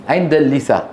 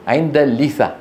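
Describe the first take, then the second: The two takes are said the same way.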